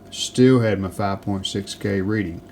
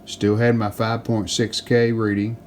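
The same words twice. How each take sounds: The two takes are said the same way.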